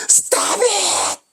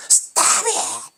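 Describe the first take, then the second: First: Sharp high angry "Stop it!", much higher pitch; imitating the opera maestro's high, cutting rebuke. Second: Breathy, high hissed "Stop it!"; imitating the maestro hissing "Stop it!" at the singer; hissed rebuke. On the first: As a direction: bark "Stop it!" like a furious maestro. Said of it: "또 관객들 다 있는 데서 용훈이한테". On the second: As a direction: spit the words out under the breath. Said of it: "이런 뜻이에요".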